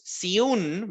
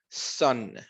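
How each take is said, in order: First: The vowel is long, like 'you'. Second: The vowel is short, like 'uh'. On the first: The speaker calls it wrong. "No es siun" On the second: The speaker calls it right. "el sonido corto de la U es el que nos interesa"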